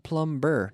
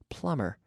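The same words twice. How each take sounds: First: The b sound is pronounced in the word. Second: The b sound is left out of the word. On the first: The speaker calls it wrong. "Not plumber" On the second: The speaker calls it right. "That's a silent B"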